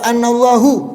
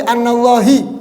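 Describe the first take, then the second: First: The word ends with an u vowel. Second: The word ends with an i vowel. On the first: "Gak boleh dibaca annallahu, keliru" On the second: "Apalagi annallahi, tambah parah"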